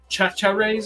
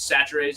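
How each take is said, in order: First: The name begins with a 'ch' sound. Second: The name begins with an 's' sound. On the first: This is how the spelling looks. "it's spelled like" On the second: This is how the name is really said. "is what it's actually like, pronounced as"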